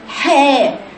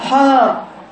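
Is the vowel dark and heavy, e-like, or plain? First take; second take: e-like; dark. First: The vowel leans toward an 'e' sound. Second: The vowel sounds dark and heavy. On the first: "لو نزل قوي تحت هيبقى حاء خطأ إمالة" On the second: "لو طلع فوق قوي عند سقف الحنك يبقى حاء تفخيم"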